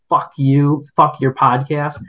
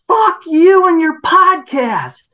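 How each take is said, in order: First: Said in the usual way. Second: High, loud, slow screamed insult; imitated angry yell. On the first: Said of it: "why you'd be yelling". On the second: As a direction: scream it down the driveway at him. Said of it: "the next one was".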